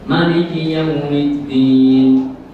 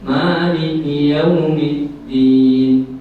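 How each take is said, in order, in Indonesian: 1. Vokal pertama Maliki itu pendek. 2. Vokal pertama Maliki itu dipanjangkan. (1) "membacanya qasar" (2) "Ada yang membaca matnya tabi'i"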